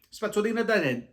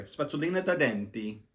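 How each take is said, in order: First: High, loud eureka Italian; excited blurt. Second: Said in the usual way. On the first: Retold or imitated. Speaker suddenly blurting the Italian word for toothbrush to pharmacist. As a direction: blurt out the word you just remembered. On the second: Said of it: "uh, sorry".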